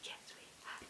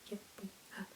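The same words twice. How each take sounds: First: It is whispered. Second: It is said in a robot voice.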